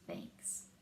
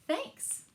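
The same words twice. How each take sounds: First: Breathless whisper of thanks. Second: Much higher, bright sung-out thanks; cheerful thanks. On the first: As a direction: whisper it, touched and tender. Friends hug bear, touching moment. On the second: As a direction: pop the thanks up high and happy. Bear's refrain thanks. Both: Acted.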